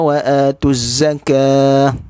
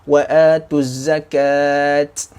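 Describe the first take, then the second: First: The final word ends with an h sound. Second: The final word ends with a t sound. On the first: The speaker calls it right. "maka dibaca dengan bunyi dia ha" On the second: The speaker calls it wrong. "kita tak baca dengan wa wa atuz zakat"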